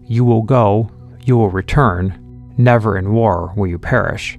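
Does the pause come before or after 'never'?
before. The pause comes before the word 'never'.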